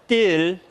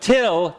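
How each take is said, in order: First: The t is released without a puff of air. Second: The t is released with a puff of air. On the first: The speaker calls it wrong. "you are French" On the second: The speaker calls it right. "instead of till"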